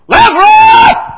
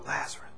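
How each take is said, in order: First: It is said firmly and with confidence. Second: It is said hesitantly and uncertainly.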